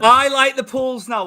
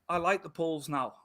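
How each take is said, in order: First: It is said louder, with more force. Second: It is said at normal, quieter volume.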